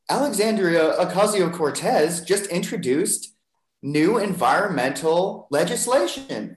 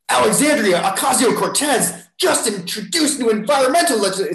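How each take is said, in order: First: The tone is calm and neutral. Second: The tone is alarmed and outraged. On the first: "CNN and they're like" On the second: "It's the same words, but the tone is like"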